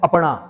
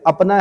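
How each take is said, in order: First: The n sound is a retroflex n. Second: The n sound is a plain dental n. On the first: This is the Kumaoni form. "नौ का अण कर देते हैं" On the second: This is the standard Hindi form. "अपना की जगह"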